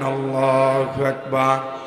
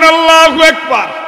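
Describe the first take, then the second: First: It is shouted loudly. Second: It is shouted at the loudest.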